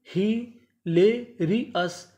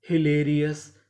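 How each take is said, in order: First: hilarious split slowly as हि-ले-रि-यस; very slow teaching breakdown of hilarious; syllable by syllable. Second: Said in the usual way. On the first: Shown as a demonstration. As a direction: pause between each chunk of hilarious. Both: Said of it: "टुकड़ों में तोड़ तोड़ के पढ़ें".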